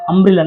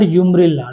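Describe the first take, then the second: First: It begins with a plain vowel sound. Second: It begins with a 'you' sound. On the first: The speaker calls it right. "The sound should be umbrella" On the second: The speaker calls it wrong. "not umbrella. Don't call umbrella. That's wrong"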